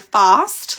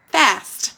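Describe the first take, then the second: First: The vowel is long and broad, like 'fahst'. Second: The vowel is short and flat, like 'fast'. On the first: This is how the speaker's own community says it. "we would say fast, like it sounds like it's got the little R in it" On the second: This is how North Americans say it. "they would say fast"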